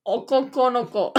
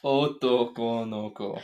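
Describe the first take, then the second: First: Okoko no ko in a put-on anime voice, falling at the end. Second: Otoko no ko said slowly with clear syllables; teacher's model. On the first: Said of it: "I'll say 'em in my anime voice". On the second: Shown as a demonstration. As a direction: Otoko no ko with a long final ko. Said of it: "That's, that's boy".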